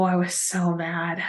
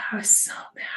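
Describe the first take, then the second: First: Dropped-down, softer admission; quiet, slow, still stewing; quietly mad. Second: Whispered repeat, no voice at all; hushed whisper, still fuming. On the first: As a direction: say it under your breath, slowly. Reliving anger at the chef. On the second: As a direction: breathe it out as an aside. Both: Real, not acted.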